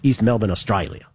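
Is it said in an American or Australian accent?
Australian. It is said in an Australian accent.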